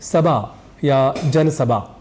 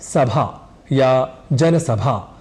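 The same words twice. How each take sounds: First: The consonant is a plain unaspirated b sound. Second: The consonant is an aspirated bh sound. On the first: The speaker calls it wrong. "पर बोल जाते हैं" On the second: The speaker calls it right. "हमें कहना होता है"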